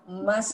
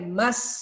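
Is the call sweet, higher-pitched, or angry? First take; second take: higher-pitched; angry. First: It is called sweetly, half an octave higher. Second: It is called angrily with irritation.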